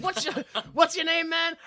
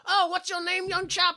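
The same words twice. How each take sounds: First: Said in the usual way. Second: High-pitched posh British caricature; exaggerated British. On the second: Potter greets the newcomer, exaggerated British accent. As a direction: overdo a British gentleman's accent. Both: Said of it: "I don't think he's that British".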